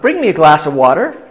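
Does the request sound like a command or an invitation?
invitation. It is said as a gentle, inviting request. The listener is invited to do it. "the first time it was more an invitation"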